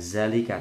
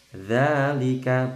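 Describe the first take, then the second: First: It begins with a buzzing 'z' sound. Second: It begins with a soft 'th' sound. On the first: The speaker calls it wrong. "bukan zalika" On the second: The speaker calls it right. "bukan zalika tapi dza"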